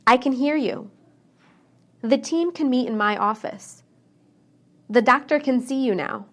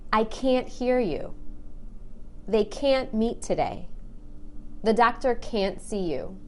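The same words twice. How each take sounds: First: "can" said quick with a short, light A; "can" reduced, its A kept brief. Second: "can't" with a long, stressed A. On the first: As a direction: clip the A in "can" short and unstressed. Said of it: "pay close attention to the word can". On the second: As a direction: stretch the A in "can't" and lean on it. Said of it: "I stress that A and make it really long". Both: Shown as a demonstration.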